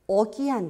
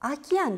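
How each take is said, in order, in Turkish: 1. İlk sesli harf tam bir 'o' gibi geliyor. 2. İlk sesli harf bir 'a' gibi geliyor. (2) "deb talaffuz qilamiz"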